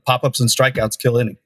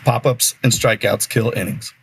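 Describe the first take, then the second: First: It is said at normal conversational speed. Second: It is said slowly and deliberately.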